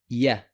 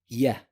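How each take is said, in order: Both takes have the same delivery.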